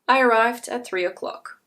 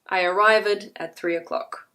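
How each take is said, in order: First: The ending of arrived is a t sound. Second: The ending of arrived adds an extra syllable. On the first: "If you say it incorrectly" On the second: "People will hear a difference, however"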